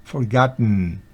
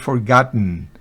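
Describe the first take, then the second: First: The last syllable's vowel is barely heard. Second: The same.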